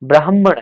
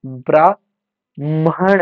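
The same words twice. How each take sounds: First: ब्राह्मण said as "brahmana" with a clear h before the m; ब्राह्मण crisply as "bra-h-mana"; correct pronunciation. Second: ब्राह्मण said slowly as "braaman", dropping the h sound; wrong pronunciation. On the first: Teacher to exam students, correct form of ब्राह्मण. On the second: Teacher to exam students, slow wrong form of ब्राह्मण. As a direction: drag out ब्राह्मण as "bra-man" with no h. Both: Shown as a demonstration. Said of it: "ब्राह्मण नहीं".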